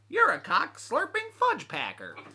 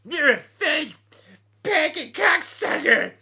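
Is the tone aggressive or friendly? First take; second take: friendly; aggressive. First: It is said in a warm, friendly tone. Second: It is said in a hostile, aggressive tone. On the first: The words are meant as good-natured ribbing. The speaker calls it right. "that's TTBP right there" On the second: The words are meant as an insult. The speaker calls it wrong. "that's not TTBP"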